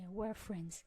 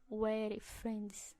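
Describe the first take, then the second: First: The phrase is said quickly. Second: The phrase is said slowly. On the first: The speaker calls it right. "você tem que falar rápido" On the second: The speaker calls it wrong. "não, não é assim"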